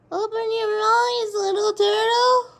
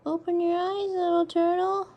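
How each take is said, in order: First: Higher, louder and slower call to the turtle; louder coaxing. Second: Said in the usual way. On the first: Real, not acted. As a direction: coax it out, calling up high and slow.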